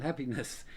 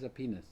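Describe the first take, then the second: First: The opening h sound is clearly pronounced. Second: The opening h sound is left out.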